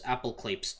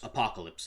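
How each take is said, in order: First: The word is said with a deliberately distorted pronunciation. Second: The word is said with its standard pronunciation. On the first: The speaker calls it wrong. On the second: The speaker calls it right.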